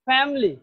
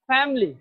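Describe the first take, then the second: The two takes are said the same way.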